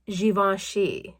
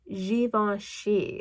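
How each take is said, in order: First: The name is said in its native form. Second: The same.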